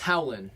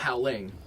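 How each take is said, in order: First: The word ends without the final g sound. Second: The word ends with a full -ing sound. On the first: The speaker calls it right. "And that's Howlin'" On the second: The speaker calls it wrong.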